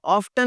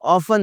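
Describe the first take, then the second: First: "ऑफ्टन" with a T after F; T sounded. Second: "ऑफन" with F straight into N; silent T. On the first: Teacher quoting what many people say, T sounded. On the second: Teacher correcting learners, T left silent. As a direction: drop the T, "ऑफन". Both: Shown as a demonstration. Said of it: "ऑफन लफ्ज़ है जनाब".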